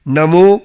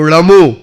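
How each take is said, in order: First: The word begins with an N sound. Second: The word begins with a retroflex D sound. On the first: The speaker calls it right. "नमो को" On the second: The speaker calls it wrong. "ये सब गलतियां करते थे"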